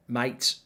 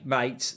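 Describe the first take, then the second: First: Australian accent. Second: Said in the usual way. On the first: Shown as a demonstration. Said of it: "stop doing Australian accents 'cause I can't do it". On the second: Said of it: "stop doing Australian accents".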